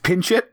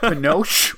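First: The name begins with 'pin' and ends 'show'. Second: The name begins with 'pa' and ends 'nosh'. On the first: The speaker calls it right. "It's Pinchot" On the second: The speaker calls it wrong. "It's not Panoche"

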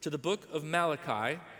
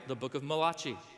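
First: Malachi is said in a plain English way. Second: Malachi is said in an Italian-style way.

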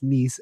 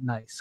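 First: The word rhymes with 'niece', with a long ee. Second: The word rhymes with 'dice', like English 'nice'. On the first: It names the French city. The speaker calls it right. "I actually pronounced that correctly, that it's Nice" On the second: It sounds like the English adjective. The speaker calls it wrong. "and not Nice"

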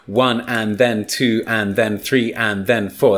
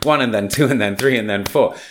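First: Every syllable gets equal time, said slowly. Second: The words are squeezed between beats, said quickly. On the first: Each syllable takes the same time, as in syllable-timed languages. "That's 10 seconds" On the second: Each stress takes the same time, as in stress-timed languages. "That's 4 seconds"

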